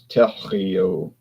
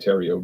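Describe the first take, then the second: First: The name is said with a French pronunciation. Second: The name is said with an English pronunciation. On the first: This is how people in France and French Canada say it. "the way they pronounce it in France and in French Canada" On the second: This is how the speaker's own family says it. "we say"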